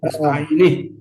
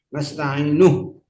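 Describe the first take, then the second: First: The word ends with an 'i' vowel. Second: The word ends with a 'u' vowel. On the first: The speaker calls it wrong. "bukan nasta'ini" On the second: The speaker calls it right. "harokatnya doma"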